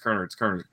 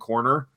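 First: The first syllable sounds like 'kern'. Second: The first syllable sounds like 'corn'. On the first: This is the name's own pronunciation. The speaker calls it right. "it's Kerner" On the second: This is how most people say the name. The speaker calls it wrong. "Most people pronounce my last name Corner"

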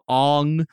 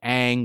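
First: The name is said in its changed pronunciation. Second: The name is said in its original pronunciation. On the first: This is how the name was said in the film. "was changed to Aang" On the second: This is how the name was said before the film. "the protagonist Aang was changed to"

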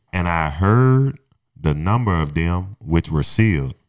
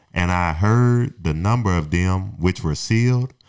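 No difference in how they are said.

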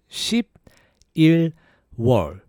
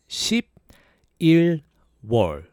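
Both takes have the same delivery.

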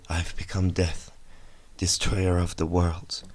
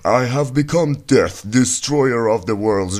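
First: It is said in a sorrowful, regretful tone. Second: It is said in a proud, gleeful tone. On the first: He regrets what he has made. "like he was remorseful" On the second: He is pleased with what he has made. "what if actually his tone was like"

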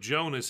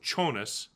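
First: The name begins with a J sound. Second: The name begins with a CH sound. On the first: "So instead of Jonas"

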